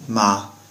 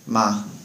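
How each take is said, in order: Both takes have the same delivery.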